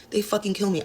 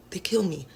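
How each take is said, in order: First: Said in the usual way. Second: Voiceless, exasperated whisper after a sigh; weary sigh. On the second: Real, not acted. Dancer complaining about customers who won't buy dances. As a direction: sigh it out, worn down.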